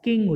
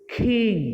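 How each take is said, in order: First: The k is said without a puff of air. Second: The k is said with a puff of air. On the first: The speaker calls it wrong. "কিং উচ্চারণ করি" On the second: The speaker calls it right. "কিন্তু উচ্চারণটা হচ্ছে খিং"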